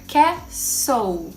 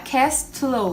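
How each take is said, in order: First: No T sound is heard after the S. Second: A T sound is heard after the S. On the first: The speaker calls it right. "é castle ... a gente não vai falar a letra T" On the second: The speaker calls it wrong. "não é castle"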